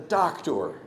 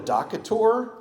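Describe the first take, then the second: First: It is said without an extra middle vowel. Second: It is said with an extra middle vowel. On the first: The speaker calls it right. "You go to a doctor" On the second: The speaker calls it wrong. "you don't go to a docator"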